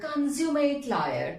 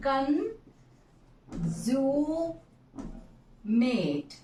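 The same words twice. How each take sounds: First: Slow demo. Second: "consummate" split into three slow syllables. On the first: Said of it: "How to pronounce". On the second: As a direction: break "consummate" into con-su-mate, very slow. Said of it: "three syllables are there". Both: Shown as a demonstration.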